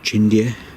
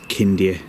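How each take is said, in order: First: The name begins with a ch sound. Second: The name begins with a k sound. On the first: This is how some people say it. "Some people pronounce it Chindia" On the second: This is how it is said in Romanian. "but in Romanian it is Kindia Tower"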